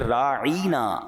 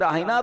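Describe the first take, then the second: First: The middle of the word is drawn out long. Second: The middle of the word is said short. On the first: A twisted form that turns it into an insult. The speaker calls it wrong. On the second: A respectful request to be given consideration. The speaker calls it right.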